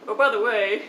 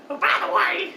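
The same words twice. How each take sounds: First: Said in the usual way. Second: Exaggerated old man. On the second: Storyteller mocking the old man at Dunkin' Donuts, exaggerated high voice. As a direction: pitch it way up, hammed-up mimicry. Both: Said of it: "he doesn't really talk like that".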